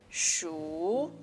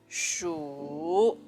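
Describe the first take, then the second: First: The pitch rises through the syllable. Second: The syllable carries the third tone. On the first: "It's a rising tone" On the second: "This is the third tone"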